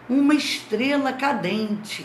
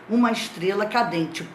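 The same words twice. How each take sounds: First: It is said with amazement. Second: It is said as a plain statement.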